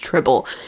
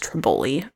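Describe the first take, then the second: First: The name ends without a final vowel sound. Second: The name ends with a pronounced vowel sound. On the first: "Maybe it's Tribble" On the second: "Why would there be an E at the end if you don't say it?"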